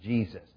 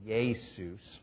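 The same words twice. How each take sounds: First: The name begins with a J sound. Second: The name begins with a Y-like sound. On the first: "you take the yeah, and you turn into a J, and it's Jesus" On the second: "In Greek, it's more Jesus"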